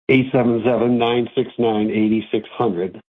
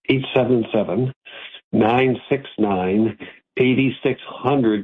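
First: The number is said fast. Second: The number is said slowly.

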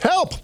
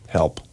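First: It is said loudly as an exclamation. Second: It is said plainly and flatly.

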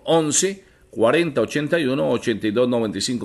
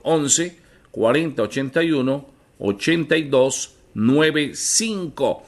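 First: It is read at normal speed. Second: It is read slowly.

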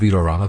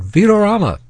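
First: It is said plainly, without excitement. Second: It is said excitedly, like an exclamation.

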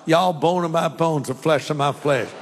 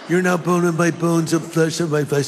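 First: It is said in a Southern accent. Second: It is said in a California accent.

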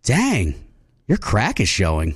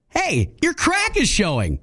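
First: It is said in a flirty tone. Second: It is said in a supportive tone.

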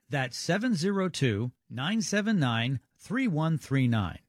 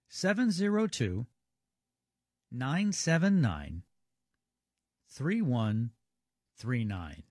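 First: The number is read at normal speed. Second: The number is read more slowly.

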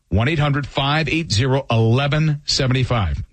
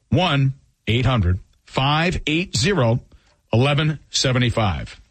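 First: The number is read at normal pace. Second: The number is read slowly.

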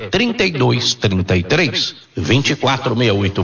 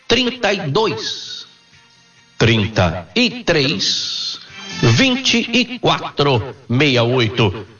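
First: The number is said at normal speed. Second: The number is said slowly.

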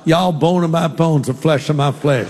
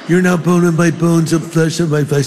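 First: It is said in a Southern accent. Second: It is said in a California accent.

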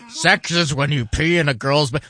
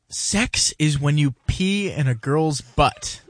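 First: It is said in a gruff, authoritative gnome voice. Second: It is said in a normal voice.

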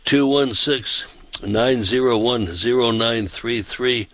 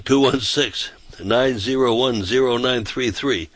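No difference in how they are said.

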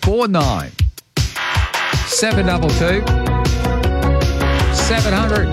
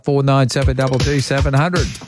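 First: The number is said slowly. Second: The number is said fast.

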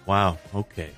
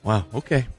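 First: It is said in a disappointed tone. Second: It is said in a supportive tone.

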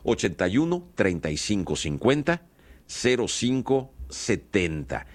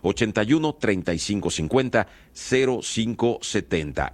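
First: The number is read more slowly. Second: The number is read at normal speed.

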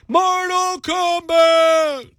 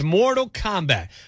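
First: It is yelled out loudly. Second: It is said in a normal speaking voice.

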